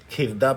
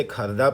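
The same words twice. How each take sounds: First: کھردہ with a short "i", as "khirda"; misreading demo. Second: کھردہ with a short "a", as "kharda"; misreading demo. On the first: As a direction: say the first vowel of کھردہ as in "kick". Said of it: "کھردہ پڑھ لیں". (کھردہ کو زیر کے ساتھ "کھِردہ" پڑھیں) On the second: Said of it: "یہ اسے کھردہ پڑھ لیں". (کھردہ کو زبر کے ساتھ "کھَردہ" پڑھیں) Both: Shown as a demonstration.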